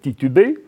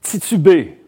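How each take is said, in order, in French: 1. Les t sont des occlusives simples. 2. Les t sont affriqués, comme ts.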